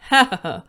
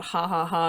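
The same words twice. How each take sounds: First: Loud, stiff robot ha ha ha; mock computer voice reading typed laughter; text-to-speech reading. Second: Said in the usual way. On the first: Shown as a demonstration. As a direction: read the ha's like an old speech synthesizer. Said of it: "it would read it as". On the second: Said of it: "would type out".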